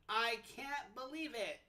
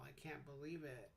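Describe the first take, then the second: First: Said happily, with the voice rising at the end. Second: Said sadly, with the voice going down. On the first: The speaker is excited by the news. "in a happy way. Your voice goes up at the end because you're excited" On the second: The speaker is upset by the news. "in a sad way"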